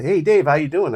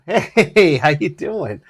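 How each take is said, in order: First: Friendly greeting. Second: High, loud greeting with a laugh; cheerful loud hello. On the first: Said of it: "he's like". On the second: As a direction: greet him loudly over your shoulder. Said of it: "I turn around and go". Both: Retold or imitated.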